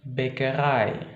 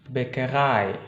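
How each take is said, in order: Both takes have the same delivery.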